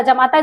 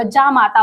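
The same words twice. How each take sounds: First: जमाता with short first vowel, "ja-maa-taa"; misspelt form read out. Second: जामाता with long first vowel, "jaa-maa-taa"; corrected form. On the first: Teacher reads students the wrongly written word, misspelt जमाता with short "ja". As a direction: say जमाता with a clipped "ja" at the start. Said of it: "देखिए गलत लिखा हुआ". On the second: Teacher gives students the correct word, जामाता with long "jaa". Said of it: "जामाता होता है". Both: Shown as a demonstration.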